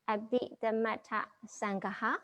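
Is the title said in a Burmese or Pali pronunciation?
Pali. The title is said in standard Pali pronunciation.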